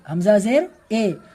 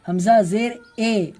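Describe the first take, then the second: No difference in how they are said.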